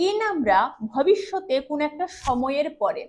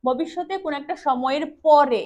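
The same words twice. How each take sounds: First: Said in the usual way. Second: পরে pressed a little harder and held at the end; stress on পরে. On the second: Shown as a demonstration. Teacher showing students where to stress পরে, leaning on it. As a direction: lean on the word পরে. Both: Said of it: "এই পরে শব্দটার উপর জোর দিতে হবে".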